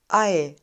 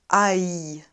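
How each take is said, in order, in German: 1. Der Diphthong endet ohne ein gedehntes I. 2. Der Diphthong endet mit einem gedehnten I. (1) "Wir sagen ei" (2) "und nicht ei ... kein gedehntes I"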